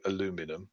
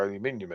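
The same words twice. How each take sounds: First: "aluminum" in the American way, four syllables, a-LU-mi-num; "aluminum" said a-LU-mi-num, for the American listener; American pronunciation. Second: "aluminium" in the British way, five syllables, al-u-MIN-i-um; "aluminium" said al-u-MIN-i-um, British style; British pronunciation. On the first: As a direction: switch to American "aluminum", stress on LU. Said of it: "in your language". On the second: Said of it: "sorry, aluminum in your language". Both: Shown as a demonstration.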